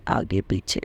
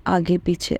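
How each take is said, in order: First: Repeats it in an unvoiced hush, marvelling; soft whispered echo. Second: Said in the usual way. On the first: Real, not acted. Telling devotees how the cars followed, whispered in wonder. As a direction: breathe the words out in awe. Cars escorting ahead and behind.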